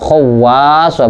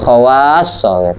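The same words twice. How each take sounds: First: The w sound is doubled and held. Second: The s sound is doubled and held. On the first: The speaker calls it wrong. "Bukan khawassa, bukan gitu" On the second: The speaker calls it right. "Shadnya yang tasdid"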